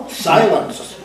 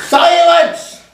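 First: Said through a laugh; half-laughing command. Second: High, loud screech; screeching command. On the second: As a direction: shriek the order over everyone. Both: A narrator's reading. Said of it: "screeched the most commanding voice".

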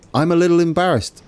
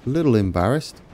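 First: Higher, a bit louder, quick sheepish admission; embarrassed. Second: Quiet echo. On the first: Player confessing to viewers, higher and quick. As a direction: blurt it out sheepishly. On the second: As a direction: mumble "A little embarrassed." back sheepishly. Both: Real, not acted.

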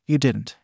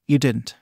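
First: Crackling whisper of horror; hoarse whisper. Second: Cracking horrified whisper; hoarse whisper. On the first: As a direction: rasp it out, horrified. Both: A narrator's reading. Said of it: "a hoarse, crackling whisper of horror".

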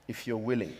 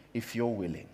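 No difference in how they are said.

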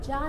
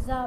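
First: जा said "jaa" with j; rejected j sound. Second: जा said "zaa", with z; dotted z sound. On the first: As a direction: give जा a j, not a z. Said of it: "इसे हम जा नहीं पढ़ेंगे". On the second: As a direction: say जा with a buzzing z, not j. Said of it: "इसे क्या पढ़ेंगे?". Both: Shown as a demonstration.

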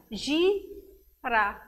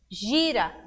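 First: "gira" split as gi, pause, ra; two separate beats on "gira"; syllable by syllable. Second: Said in the usual way. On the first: Shown as a demonstration. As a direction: count out "gira" with a clear gap in the middle. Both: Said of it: "quer saber o número de sílabas".

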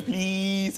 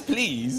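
First: "Please" higher and stretched out; imitated child's please. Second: Said in the usual way. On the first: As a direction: draw out "Please" like a small child asking. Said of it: "He goes". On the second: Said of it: "And then he says".

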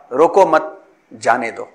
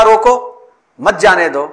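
First: रोको मत run together, pause, then जाने दो; slow, lower reading broken after मत. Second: Raised रोको set apart from मत जाने दो; pause after रोको. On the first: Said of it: "माना तब्दील हो गया पूरा". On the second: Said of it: "रोको पर तक-, तवक्कुफ बादशाह वक्त ने किया". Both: Shown as a demonstration.

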